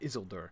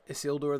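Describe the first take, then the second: First: The stress is on the first syllable. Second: The stress is on a later syllable. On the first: The speaker calls it wrong. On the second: The speaker calls it right.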